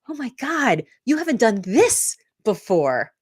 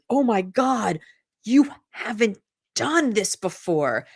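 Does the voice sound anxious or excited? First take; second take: excited; anxious. First: It sounds excited and full of eagerness. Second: It sounds anxious and full of doubt.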